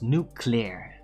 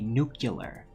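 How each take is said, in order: First: It is said in the standard, careful form. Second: It is said in the common American variant. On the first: The speaker calls it right. "It's nuclear" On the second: The speaker calls it wrong. "you're not supposed to say nuclear"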